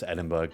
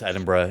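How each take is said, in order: First: The name ends with a hard burg sound. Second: The name ends softly, without a hard g. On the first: This is how most Americans say it. The speaker calls it wrong. "most Americans pronounce Edinburgh in Scotland as Edinburgh" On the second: This is the name of the city in Scotland. The speaker calls it right. "Edinburgh in Scotland"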